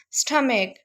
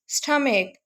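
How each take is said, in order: Both takes have the same delivery.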